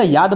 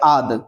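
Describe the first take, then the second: First: The word starts with a clear 'y' sound. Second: The word starts directly with an 'a' vowel. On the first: The speaker calls it right. "याद को हमेशा याद बोलेंगे" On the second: The speaker calls it wrong. "अगर हम इसको बोलेंगे आद, तो आपको अच्छा लगेगा सुन के? नहीं लगेगा।"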